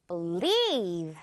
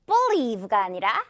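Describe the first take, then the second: First: Believe with light be, strong LIEVE; stress on lieve. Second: Believe with BE stressed, slowly; wrong stress on be. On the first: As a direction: skim be, punch LIEVE. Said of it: "뒷부분에 강세 팍 줄게요". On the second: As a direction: say believe wrongly, BE clear and heavy. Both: Shown as a demonstration.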